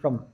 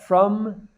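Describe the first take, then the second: First: The vowel is reduced to a schwa. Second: The vowel is full and clear. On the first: "It has this uh, uh, the schwa sound being used" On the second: "the full uh from, the full vowel sound"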